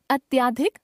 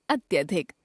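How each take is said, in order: First: अत्याधिक with long "tyaa"; mispronounced middle vowel. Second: Said in the usual way. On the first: Shown as a demonstration. Teacher showing a common error, अत्याधिक with long middle vowel. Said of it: "अशुद्ध". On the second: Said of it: "शुद्ध".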